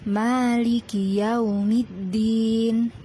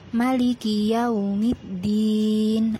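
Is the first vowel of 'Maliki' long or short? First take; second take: long; short. First: The first vowel of 'Maliki' is held long. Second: The first vowel of 'Maliki' is cut short. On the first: The speaker calls it right. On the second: The speaker calls it wrong.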